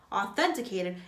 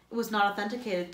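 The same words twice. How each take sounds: First: "Authenticated?" repeated in mild disbelief; incredulous echo. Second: "authenticated" said flatly with a falling close; a curt official refusal; firm statement. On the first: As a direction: toss the word back, scoffing. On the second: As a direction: warden stating it flatly, then the word echoed back. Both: A narrator's reading.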